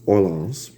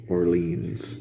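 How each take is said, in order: First: Orleans. said OR-lenz, slow, like New Orleans; American pronunciation. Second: Orleans. said or-leens, softly; quiet guess at an Irish Orleans; Irish-style pronunciation. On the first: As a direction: settle on the American Orleans, slowly. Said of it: "I'll go with that as an American". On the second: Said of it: "Irish folk would pronounce Orleans". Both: Shown as a demonstration.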